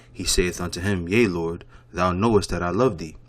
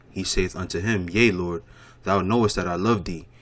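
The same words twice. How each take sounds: The two takes are said the same way.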